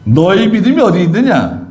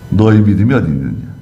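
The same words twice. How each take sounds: First: "너희 믿음이 어디 있느냐" asked higher, with a push on 믿음이; questioning reproach. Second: Said in the usual way. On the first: Acted. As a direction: reproach the disciples' faith. (제자들의 믿음을 나무라는 높은 질문) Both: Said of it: "또 다른 성경에서는".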